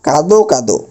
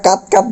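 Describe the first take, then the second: First: কাদো কাদো with a full o ending each word; final o sound. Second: কাত কাত cut off on the consonant, no final vowel; wrong pronunciation. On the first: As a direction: finish each কাদো on a clear ও. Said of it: "উচ্চারণটা হবে এরকম". (শেষে ও দিয়ে: কাদো কাদো) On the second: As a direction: end each কাত on the bare t/d sound. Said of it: "বলতে পারবো না". (ভুল উচ্চারণ: স্বরহীন কাত কাত) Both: Shown as a demonstration.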